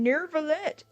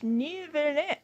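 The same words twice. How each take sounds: First: The name is said with an R sound. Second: The name is said without an R sound. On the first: The speaker calls it wrong. "Do you see the letter R in the name? No. So stop saying Neuvillette" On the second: The speaker calls it right. "It's Neuvillette"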